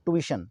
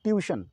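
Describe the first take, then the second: First: ट्यूशन as American tu-i-shan; American ट्यूशन, plain tu without a y; American pronunciation. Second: ट्यूशन as British tyu-i-shan; British ट्यूशन with a y after t; British pronunciation. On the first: Teacher showing the American word, ट्यूशन as American tu-i-shan. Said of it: "ये American word है". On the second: Teacher showing the British form, ट्यूशन as British tyu-i-shan. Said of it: "British में बोलेंगे". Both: Shown as a demonstration.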